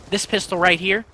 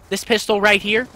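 Both takes have the same delivery.

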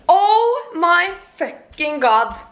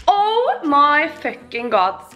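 First: Much higher, slow, drawn-out oh; stretched exclaim. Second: Slow, less high, falling repeat. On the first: Vlogger shocked at losing her smell, higher stretched cry. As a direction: drag out every word in shock. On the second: Vlogger repeating her shock, slower falling version. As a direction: say it again, sinking. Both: Real, not acted.

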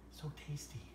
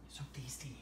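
First: Said in the usual way. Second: Breathy whisper to a dog. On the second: Real, not acted. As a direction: whisper it softly. Whispered then voiced.

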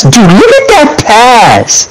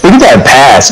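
First: High, slow, stretched-out awe; drawn-out excited. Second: Said in the usual way. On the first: Real, not acted. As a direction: drag it out, amazed at the pass. Teammate admiring a replayed pass.

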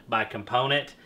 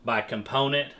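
No difference in how they are said.

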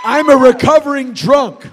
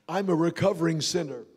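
First: Punched out loud; loud confession. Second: Quiet confession. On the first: Preacher confessing aloud to the congregation, loud. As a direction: shout the confession out. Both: Real, not acted. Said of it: "grounds for my apology".

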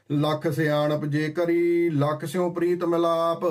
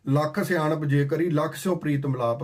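First: Slow, drawn-out reciting of ਲੱਖ ਸਿਆਣਪ ਜੇ ਕਰੀ; slow verse recitation. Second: Said in the usual way. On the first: Acted. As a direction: lay the verse out word by word, slowly. (ਹੌਲੀ ਹੌਲੀ ਪਾਠ ਵਾਂਗ)

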